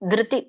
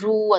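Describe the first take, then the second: First: The syllable is said with spread lips. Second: The syllable is said with rounded lips. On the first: The speaker calls it right. "ಬಾಯಿ ನಮ್ ತುಟಿ ಅಗಲ ಆಗ್ಬೇಕು" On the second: The speaker calls it wrong. "ಧ್ರು ಅಂತ ಹೇಳ್ಬೇಡಿ ... ತುಟಿನ ಮುಂದೆ ಮಾಡ್ಬೇಡಿ"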